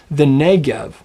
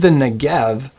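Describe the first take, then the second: First: Negev with full NEH, light gev; stress on first syllable. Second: Negev with GEV stressed, first vowel reduced; stress on last syllable. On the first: Teacher giving the desert's name, Negev stressed on first syllable. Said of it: "where does the accent fall on that word". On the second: Teacher showing the mispronunciation, Negev stressed on GEV. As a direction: put the weight on the end of Negev. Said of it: "It's not the Negev". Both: Shown as a demonstration.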